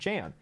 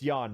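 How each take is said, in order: First: The name is read the English way. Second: The name is said the German way. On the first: The speaker calls it wrong. "it's spelled J A N, so we pronounced it Jan" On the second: The speaker calls it right. "I know it's Jan now, because it's German"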